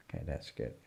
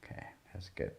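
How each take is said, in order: First: Said in the usual way. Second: Whispered approval to herself. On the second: Real, not acted. Teacher whispering approval of her own shading. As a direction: breathe it out softly, almost voiceless. Murmured approval while drawing.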